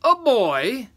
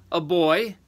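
First: High, loud, incredulous question; amused giant. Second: Raised, louder giant voice; giant answering. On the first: A narrator's reading. Third giant amused at the catch, incredulous. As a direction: echo it as a big, amused giant. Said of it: "chuckled the third giant". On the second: Acted. First giant answering the third, matter-of-fact.

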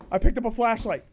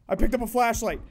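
Both takes have the same delivery.

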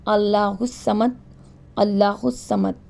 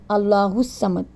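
First: Allah al Samad drawn out slowly and calmly; slow model recitation of Allah al Samad. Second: Said in the usual way. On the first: Shown as a demonstration. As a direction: say it unhurried, syllable by syllable. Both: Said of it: "بالکل آرام سے پڑھنا ہے".

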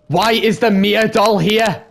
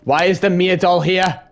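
First: Higher, louder, slowed fearful plea; scared. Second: A touch of rising fear; nervous repeated question; scared. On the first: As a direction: fear boiling over on the repeat. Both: Real, not acted. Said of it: "I'm scared".

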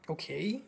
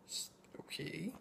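First: Said in the usual way. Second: Unimpressed breathy-voiceless okay; whispered okay. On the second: Real, not acted. Reviewer shrugging at the tame whipping scene, whispered. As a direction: mutter it under the breath, unimpressed.

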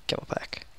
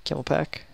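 First: "Camel pack" whispered, no voice; whispering. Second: Said in the usual way. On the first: Shown as a demonstration.

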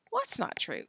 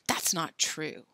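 First: Said in the usual way. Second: Slow hushed whisper. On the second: A narrator's reading. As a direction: say it under breath. Quiet retort.

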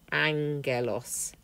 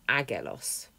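First: Angelos said slowly, ng sound clear. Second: Agelos as the rejected reading, hard g; agelos, g not nasal; wrong form agelos. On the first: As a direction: say angelos with the ng, drawn out. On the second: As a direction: contrast take agelos with a plain g. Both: Shown as a demonstration. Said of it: "not agelos".

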